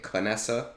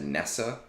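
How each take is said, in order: First: The name starts with a sounded K syllable. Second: The name starts directly with the N sound. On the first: This is how others say the name. "I heard you guys all pronouncing it Canessa" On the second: This is how the speaker has always said the name. "I've always said Nessa because K N is like it makes sense"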